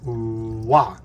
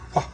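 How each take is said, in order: First: It is said with a plain voiced sound. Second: It is said with a strong burst of air. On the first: "activate the voice" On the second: "If I really blow the air"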